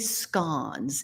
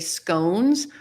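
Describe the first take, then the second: First: The word is said the British way. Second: The word is said the American way. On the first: "In the U K, they say scones" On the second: "Americans, we say scones"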